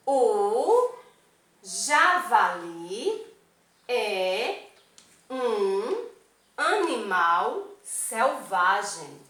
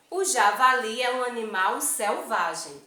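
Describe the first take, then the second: First: Slow, stretched reading of "O javali é um animal selvagem", pausing after each word. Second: Said in the usual way. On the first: Shown as a demonstration. ("O javali é um animal selvagem" lido devagar, palavra por palavra) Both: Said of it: "Vamos ler?".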